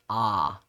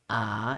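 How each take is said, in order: First: The vowel is pushed back into the throat. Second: The vowel is plain, without throat constriction. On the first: "it throws it further back in the throat" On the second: "instead of being ah"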